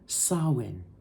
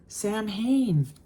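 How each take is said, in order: First: It is said the Gaelic way, not as spelled. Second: It is said as spelled, like 'Sam Hain'. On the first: The speaker calls it right. "It's pronounced Samhain" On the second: The speaker calls it wrong. "I've been totally saying it wrong"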